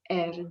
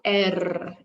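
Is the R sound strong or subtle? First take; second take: subtle; strong. First: The R sound at the end is very subtle. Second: The R sound at the end is strong. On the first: The speaker calls it right. "The R is very subtle" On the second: The speaker calls it wrong. "it's not air"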